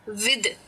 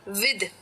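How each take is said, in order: First: The final th is voiced, like in this. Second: The final th is voiced, like in this.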